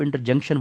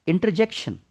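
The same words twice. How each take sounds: First: इंटरजंक्शन with "junction" in place of "jection"; mispronounced interjection. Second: इंटरजेक्शन with a clear "jek" syllable, pitched higher; correct interjection pronunciation. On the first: Teacher quoting students' common slip, mispronouncing इंटरजंक्शन with a "junk" syllable. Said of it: "अक्सर बच्चे इसको इंटरजंक्शन बोलते हैं". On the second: Teacher correcting students' slip, pronouncing इंटरजेक्शन with "jek". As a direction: say इंटरजेक्शन ending in "jection", not "junction". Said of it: "जंक्शन मत बोलिएगा". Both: Shown as a demonstration.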